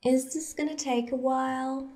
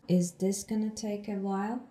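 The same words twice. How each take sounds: First: Is this gonna take a while? pitched high and bouncy, the Is lifted; lively natural question; right intonation. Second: Is this gonna take a while? said flat and soft with a small end rise; a dull, lifeless question; wrong flat intonation. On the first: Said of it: "Intonation means". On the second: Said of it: "You shouldn't say it like this". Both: Shown as a demonstration.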